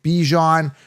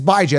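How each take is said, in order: First: It starts with 'bee' and ends like 'John'. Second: It starts with 'bye' and ends like 'Jan'. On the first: The speaker calls it wrong. "He mispronounces it by calling it Bijan" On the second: The speaker calls it right. "That's the proper way to pronounce it"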